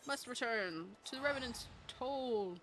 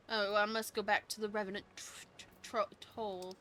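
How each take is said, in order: First: Mock French snobbery on "Revenant's Toll"; snooty French. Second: Said in the usual way. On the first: Shown as a demonstration. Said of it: "I gotta say it like an arsehole". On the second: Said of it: "Oh, I'm sorry, French. I gotta say it like an arsehole".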